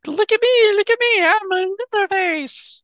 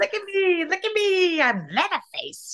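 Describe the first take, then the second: First: High, loud cartoon squeak; squeaky vintage cartoon voice; cartoon character voice. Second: High cartoon squeak, softer; imitating a squeaky cartoon; cartoon character voice. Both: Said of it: "he sounded like a cartoon character".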